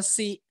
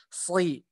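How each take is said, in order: First: "si" with a thin, plain s; sin tipis. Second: "sli" as a thick emphatic s plus i; shad kasrah tebal. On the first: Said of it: "tidak naik pangkal lidahnya". ("si" tipis, pangkal lidah tidak naik) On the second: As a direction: raise the tongue back on "sli". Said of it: "yang benar adalah penyebutannya". ("sli" tebal, pangkal lidah naik) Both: Shown as a demonstration.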